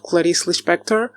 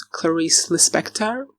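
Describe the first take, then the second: First: "Clarice Lispector" said the Brazilian Portuguese way; Portuguese pronunciation. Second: "Clarice Lispector" said the English way; English pronunciation. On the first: Naming a Brazilian writer, "Clarice Lispector" in Portuguese pronunciation. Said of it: "I think in English you would pronounce". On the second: Showing viewers the English version, "Clarice Lispector" in English pronunciation. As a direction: anglicize "Clarice Lispector" as English speakers would. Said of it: "in English you would pronounce". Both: Shown as a demonstration.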